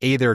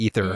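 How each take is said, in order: First: The word is not pronounced like 'ether'. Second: The word is pronounced like 'ether'. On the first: This is the old habitual pronunciation. The speaker calls it wrong. "I got myself retrained from" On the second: This is the confirmed official pronunciation. The speaker calls it right. "they pronounced it like Ether"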